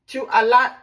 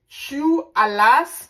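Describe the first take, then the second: First: The final S sound is silent. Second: The final S sound is pronounced. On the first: "if you want to pronounce it" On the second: "but I pronounce the S to differentiate it"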